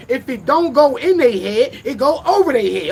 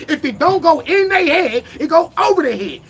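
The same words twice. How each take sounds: First: Said in the usual way. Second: Higher, louder, punching "in" and "over"; louder for the back. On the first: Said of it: "I'ma say that again". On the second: Shown as a demonstration. Rapper repeats his motto for people in the back, louder. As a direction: repeat it so the back row hears. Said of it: "I'ma say that again for the motherfuckers in the back".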